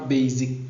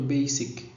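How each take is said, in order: First: The word is pronounced the way French speakers read it. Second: The word is pronounced the English way. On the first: The speaker calls it wrong. "les francophones, on ne lit pas basic" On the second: The speaker calls it right. "mais plutôt basic"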